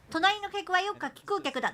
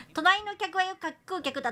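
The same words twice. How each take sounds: First: 隣の客はよっか帰空客だ rattled off in one careful run, every syllable crisp; tongue twister retry. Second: 隣の客はよく、観光客だ said by slipping into 観光客 instead of 柿食う客; trying the tongue twister 隣の客はよく and stumbling into 観光客だ; flubbed tongue twister. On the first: Streamer retries the tongue twister for chat, carefully articulated. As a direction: get through 隣の客はよっか帰空客だ cleanly this time. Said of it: "もう一回もう一回". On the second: Streamer attempts a tongue twister for chat, stumbling through it. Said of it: "いきます". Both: Shown as a demonstration.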